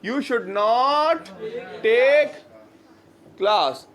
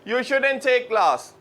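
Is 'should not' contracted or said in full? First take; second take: full; contracted. First: Should and not are said as two words. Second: Should and not are joined into shouldn't. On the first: "negative होगा you, yeah, you should not take class" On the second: "शुड नॉट को मिला के हम लोग कहते हैं शुडंट"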